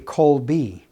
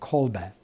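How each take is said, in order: First: The name is said with English-style pronunciation. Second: The name is said with Polish-style pronunciation. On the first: The speaker calls it wrong. "People are going to say Kolbe, but we don't say that in Polish" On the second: The speaker calls it right. "the original way to say it"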